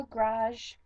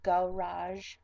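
First: Garage in one syllable, "grazh"; local pronunciation. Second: Garage in two syllables, "guh-RAZH"; standard pronunciation. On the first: Showing own way of talking, one-syllable garage. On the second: Contrasting with own way, careful two-syllable garage. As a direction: sound out both syllables of garage. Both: Shown as a demonstration. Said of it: "Instead of garage".

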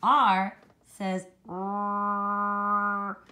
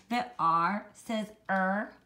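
First: "r" held long, buzzing, without a vowel; pure R sound. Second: "er" said as a slow vowel er; wrong R as er. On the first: Teacher showing the right R sound, long "r". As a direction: stretch out a slow rrr. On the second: Teacher showing the wrong R sound, "er". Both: Shown as a demonstration. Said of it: "it does not say er".

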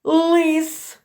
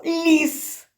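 First: "Лис" with a hard, unpalatalized Л and the vowel и. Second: "ліс" with a soft, palatalized Л before і. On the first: Teacher contrasting two words, "Лис" with hard Л. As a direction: say "Лис" slowly alone, tongue back for hard Л. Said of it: "Лис тверда Л". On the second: Teacher contrasting two words, "ліс" with soft Л. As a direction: raise the tongue for a soft Л in "ліс". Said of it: "а ліс буде м'яка Л". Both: Shown as a demonstration.

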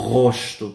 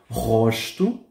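First: "Rosto" with R from the throat, not trilled; model word. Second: "Rosto" with throaty R, rising; model word. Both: Shown as a demonstration. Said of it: "la primera R suena desde la garganta".

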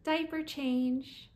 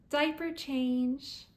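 No difference in how they are said.

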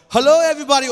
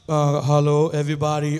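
First: High, very loud put-on greeting; trying out a tone. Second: Low, loud put-on greeting; trying out a tone. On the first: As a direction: try the raised, booming version of your tone. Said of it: "I wanna know the tone". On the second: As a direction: try the deep version of your preaching tone. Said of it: "how am I gonna sound, like". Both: Shown as a demonstration.

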